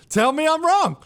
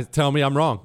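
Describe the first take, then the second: First: "Tell me I'm wrong" pushed up high and loud; louder repeat. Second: Said in the usual way. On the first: Real, not acted. Radio host daring listeners, insisting louder. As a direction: challenge the audience, voice rising.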